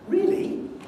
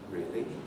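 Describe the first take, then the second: First: It rises in a high pitch range. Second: It rises in a low pitch range. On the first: The speaker is positive and pleased about the news. "you give a rise in a mid or even a high key, so something like a higher rise" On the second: The speaker does not care or wishes it had not happened. "You haven't really communicated very much"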